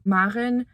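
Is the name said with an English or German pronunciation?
German. The name is said with a German pronunciation. "in German, you'd pronounce my name"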